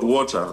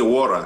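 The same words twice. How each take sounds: First: It is said with a Kenyan English pronunciation. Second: It is said with an American English pronunciation.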